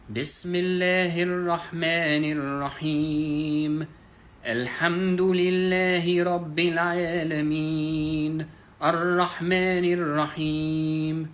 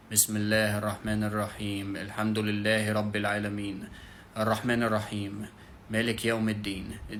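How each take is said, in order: First: Chanted Quran recitation, higher, with long-held vowels; sung, melodious recitation. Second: Monotone recitation, quick and level, with no melody. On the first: Teacher demonstrating how to recite, in a melodious chant. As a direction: draw out each phrase in a sustained melodic chant. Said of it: "when you read it something like this". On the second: Teacher demonstrating how not to recite, very monotone. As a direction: read the verses out on one note. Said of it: "Just a very monotone voice". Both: Shown as a demonstration.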